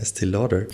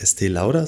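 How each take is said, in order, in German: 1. Der Name wird amerikanisch ausgesprochen. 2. Der Name wird nicht amerikanisch ausgesprochen. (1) "sondern Estée Lauder" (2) "deshalb spricht man nicht Estée Lauder"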